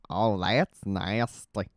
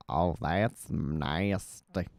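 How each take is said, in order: First: Slow, drawn-out Cleveland impression. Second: Slow, lower drawn-out Cleveland. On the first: Streamer testing a Cleveland voice, slow. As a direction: drag it out like Cleveland. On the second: Streamer retrying Cleveland, slow and lower. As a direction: sink into Cleveland's drawl. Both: Shown as a demonstration. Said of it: "even the Cleveland's kinda weird".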